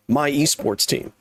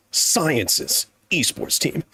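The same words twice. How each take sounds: First: Said in the usual way. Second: Science's said slowly and deliberately; slow correction stressing Science's. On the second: Shown as a demonstration. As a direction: draw out Science's to correct yourself.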